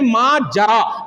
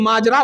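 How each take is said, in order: First: It is said with the original Arabic pronunciation. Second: It is said with the everyday Urdu pronunciation. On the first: This is the word's original Arabic form. "असल में है माजरा" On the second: This is the form the word later took in Urdu. "ये माजरा उर्दू में बाद में हो गया है"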